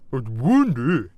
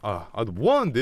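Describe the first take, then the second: First: The voice is overdone and forced low. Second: The voice is natural and unforced. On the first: Friends are mocking the speaker's voice. "이러면서 오버하면서 얘기를 한다니까" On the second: This is the speaker's own normal way of talking. "이렇게 말하면"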